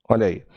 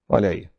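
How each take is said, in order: No difference in how they are said.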